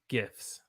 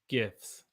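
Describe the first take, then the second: Both takes have the same delivery.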